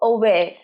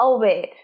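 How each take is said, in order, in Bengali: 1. প্রথম স্বরধ্বনিটি 'uh' এর মতো শোনায়। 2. প্রথম স্বরধ্বনিটি 'uh' এর মতো শোনায়।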